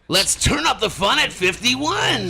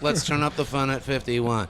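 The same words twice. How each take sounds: First: It is read with loud, excited energy. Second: It is read in a plain, flat way. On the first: The speaker calls it right. "you're supposed to to exclaim what you're reading" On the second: The speaker calls it wrong. "Not just"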